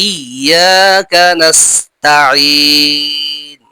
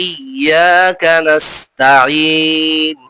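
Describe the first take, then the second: The two takes are said the same way.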